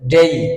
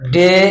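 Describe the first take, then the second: First: The vowel glides from e toward i. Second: The vowel is a plain, steady e sound. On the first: The speaker calls it right. "Right উচ্চারণ ডেই" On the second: The speaker calls it wrong. "ডে ভুল উচ্চারণ"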